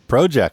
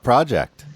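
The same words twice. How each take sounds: First: The word is said with a Canadian accent. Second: The word is said with an American accent.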